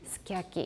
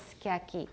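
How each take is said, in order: First: It is said the way Japanese speakers say it. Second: The same.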